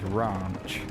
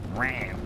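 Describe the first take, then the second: First: It is said in a posh local accent. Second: It is said in an American accent. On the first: "a lot of people over here, the way they'll pronounce it is they'll pronounce it as ranch... it sounds a bit posh" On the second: "American people call it ranch"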